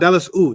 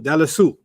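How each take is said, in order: First: The ending is split off from the word. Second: The ending is joined smoothly to the word. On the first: The speaker calls it wrong. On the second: The speaker calls it right.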